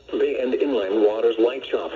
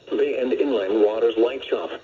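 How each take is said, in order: Both takes have the same delivery.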